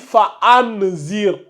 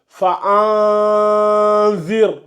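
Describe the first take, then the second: First: The n sound is pronounced clearly and fully. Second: The n sound is hidden and not fully pronounced. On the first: The speaker calls it wrong. "on ne dit pas ici" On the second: The speaker calls it right. "On dit"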